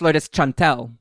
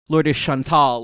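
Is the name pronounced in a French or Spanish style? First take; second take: Spanish; French. First: The name is pronounced in a Spanish style. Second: The name is pronounced in a French style. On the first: The person is from Spain. The speaker calls it right. "she's Spanish, so it's Chantel" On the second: The person is assumed to be French. The speaker calls it wrong. "like she's French"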